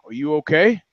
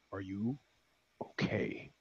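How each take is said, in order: First: Said in the usual way. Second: Barely voiced whisper of the question; menacing whisper. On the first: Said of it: "Guy driving says". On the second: Driver gives the last warning in a whisper. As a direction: breathe it as a final quiet threat. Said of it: "the third and last time".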